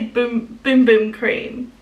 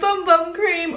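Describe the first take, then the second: First: The vowel is long, rhyming with room. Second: The vowel is short, rhyming with gum. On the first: The speaker calls it right. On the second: The speaker calls it wrong.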